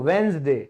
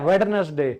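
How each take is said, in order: First: The d after the first vowel is silent. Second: The d after the first vowel is pronounced. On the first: The speaker calls it right. "डी तो silent है" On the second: The speaker calls it wrong. "नाइंटी percent लोग वेडनेसडे"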